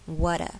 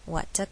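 First: The middle T is flapped, like a D. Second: The middle T is a clear T sound. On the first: "如果是美式发音会变成water water" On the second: "这边没有"

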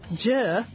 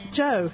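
First: The vowel sounds like a flat 'er'. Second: The vowel sounds like a rounded 'oh'. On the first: This is how locals in the hometown say it. "people pronounce my name Jer" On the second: This is how it is said outside the hometown. "not Joe"

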